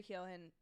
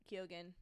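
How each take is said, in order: First: Keoghan said as KEE-oh-hen; first try at Keoghan, KEE-oh-hen; silent-g pronunciation. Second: Keoghan said as KEE-oh-gen; corrected Keoghan, KYOH-gen with hard G; hard-g pronunciation. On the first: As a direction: say Keoghan with an H, no hard G. Name said, then corrected. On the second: Second try at the name. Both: Real, not acted.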